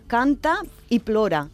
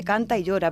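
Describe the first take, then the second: First: "canta y plora" in Catalan, with a clear pl in "plora". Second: Said in the usual way. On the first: Shown as a demonstration. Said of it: "significa canta y plora". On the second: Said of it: "Literalmente canta y llora".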